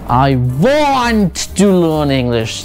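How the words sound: The word want is stressed. The focus is on what the person wants. "ये बंदा क्या चाहता क्या है आखिर"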